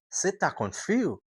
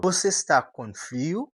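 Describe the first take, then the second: First: "Você" as se and "tá" short, pitched higher; casual native você tá com frio; reduced tá. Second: Said in the usual way. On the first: Shown as a demonstration. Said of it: "Ele vai falar". ("você" vira "se" e "tá" curto, mais agudo) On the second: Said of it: "Por exemplo".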